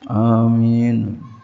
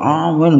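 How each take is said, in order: First: It is said moderately loudly. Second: It is said very loudly.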